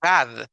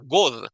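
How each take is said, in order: First: The vowel sounds like a Spanish A. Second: The vowel sounds like a Spanish O. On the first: "Tampoco es una A, no es God" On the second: "La O de español sería God"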